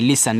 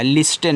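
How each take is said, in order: First: लिसन, low, with no t; listen with silent t. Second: लिस्टन with an audible t; mispronunciation of listen. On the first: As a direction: say लिसन as LI-sun. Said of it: "ये आपका लिसन हो गया". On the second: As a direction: say लिस्टन as LIS-tun. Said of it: "लिस्टन नहीं". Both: Shown as a demonstration.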